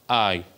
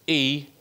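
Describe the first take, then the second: First: The word is pronounced the English way. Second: The word is pronounced the Welsh way. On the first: The speaker calls it wrong. "not I" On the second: The speaker calls it right. "if we see this in Gymraeg, it's I"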